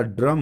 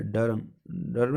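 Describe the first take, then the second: First: Said in the usual way. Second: डर्म said "da-ram", vowel before the r; misplaced r. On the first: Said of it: "ड्रम होता है". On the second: Shown as a demonstration. Teacher showing the wrong form, डर्म said as "da-ram". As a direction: say डर्म as dar-am. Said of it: "नहीं होता".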